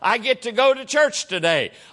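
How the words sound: It sounds joyful and excited.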